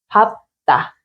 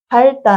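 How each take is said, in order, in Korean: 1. 첫 음절은 ㅂ 소리로 끝나요. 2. 첫 음절은 ㄹ 소리로 끝나요. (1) "second consonant로 말해요" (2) "아니요"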